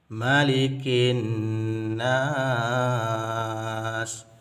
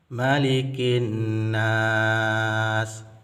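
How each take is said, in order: First: The last vowel is held about six counts. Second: The last vowel is held about four counts. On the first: "enam harakat" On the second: "empat harakat"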